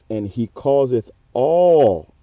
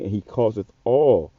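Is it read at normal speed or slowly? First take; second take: slowly; normal. First: It is read very slowly. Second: It is read at a normal pace.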